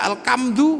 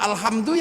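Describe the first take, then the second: First: The word is said with a k sound. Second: The word is said with an h sound.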